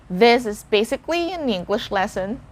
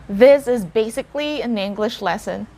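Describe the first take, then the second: No difference in how they are said.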